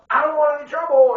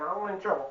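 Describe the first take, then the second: First: It is yelled very loudly. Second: It is said in a calm voice.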